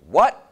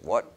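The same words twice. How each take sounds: First: Very loud, high, rising outburst; rude, outraged disbelief. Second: Milder, politely puzzled query; polite surprise. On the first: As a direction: shoot it back, utterly affronted. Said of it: "This doctor said". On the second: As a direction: ask it courteously, only a little taken aback. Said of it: "Howie was at least polite". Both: Retold or imitated.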